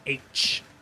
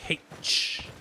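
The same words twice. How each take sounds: First: The letter name begins with a vowel, no h. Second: The letter name begins with an h sound.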